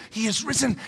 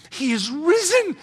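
First: Said in the usual way. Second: Drawn out, a bit higher; slow solemn proclamation. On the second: Pretend. Angel proclaiming to the women, slow and solemn. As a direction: announce it with slow awe.

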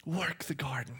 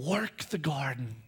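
First: Whisper. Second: Said in the usual way. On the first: Shown as a demonstration. God whispers "Work the garden" to man.

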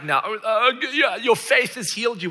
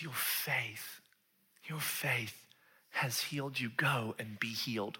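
First: Loud, high, pompous pronouncement; hammed-up preachy announcement; mock proclamation. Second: Soft, unhurried reassurance; hushed, sincere blessing; gentle affirmation. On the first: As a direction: declare it showily, as a parody. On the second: Acted. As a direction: say it quietly and tenderly. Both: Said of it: "So he's not like".

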